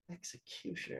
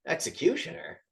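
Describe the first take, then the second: First: Executioner. dropped to a much softer falling mutter; dawning realisation. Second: Executioner? asked with a rising, puzzled tune; puzzled question. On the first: Gang boss realising who he faces, soft and falling. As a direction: let the penny drop, quietly. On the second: Gang boss hearing the title, puzzled and rising. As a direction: ask it like the word baffles him. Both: Retold or imitated. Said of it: "it cuts to the boss and he goes".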